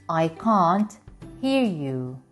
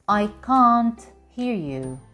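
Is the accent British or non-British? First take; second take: British; British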